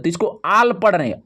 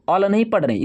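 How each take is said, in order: First: आल said with a long open aa; long-vowel आल, not अल. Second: अल said with a short clipped a; short-vowel अल, the wrong way. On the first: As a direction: stretch the vowel in आल. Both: Shown as a demonstration.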